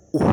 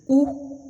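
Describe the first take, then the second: First: "ou" said on a dropped low pitch. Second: "ou" said on a sharply raised, louder high pitch. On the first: Teacher shows learners the low tone on "ou", low and settled. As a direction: let "ou" sink down as the low tone. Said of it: "est le ton grave". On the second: Teacher shows learners the high tone on "ou", high and bright. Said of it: "le ton aigu". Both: Shown as a demonstration.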